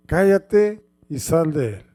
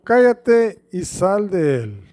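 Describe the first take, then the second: First: "Cállate y sal de él" said firmly, stressing "Cállate"; con autoridad. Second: Slow, firm command on "Cállate"; con autoridad. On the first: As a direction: command it with authority. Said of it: "se dice más fuerte... con autoridad". (ordenar "Cállate y sal de él" con autoridad) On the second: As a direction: order it with full authority. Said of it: "con signos de admiración". ("Cállate y sal de él" dicho con fuerza y autoridad) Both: Shown as a demonstration.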